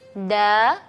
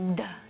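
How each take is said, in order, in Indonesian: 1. Diucapkan dengan suara biasa dan wajar. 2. Diucapkan dengan suara dalam dan bass.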